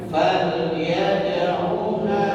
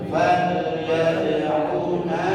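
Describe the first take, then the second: Both takes have the same delivery.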